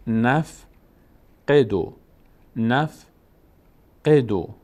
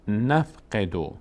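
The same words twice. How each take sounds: First: "نف" and "قدو" said apart, a clear pause between; syllable-group demo. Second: "نف قدو" slow but linked as one word; joined-up reading demo. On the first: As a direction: split "نف" from "قدو" with measured pauses. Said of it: "مجبوریم که نون رو بچسبونیم به". («نف» و «قدو» جدا جدا با مکث) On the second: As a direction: bring "نف" and "قدو" together, slowly. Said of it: "تا بخونیمش". («نف قدو» سرهم و آهسته) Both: Shown as a demonstration.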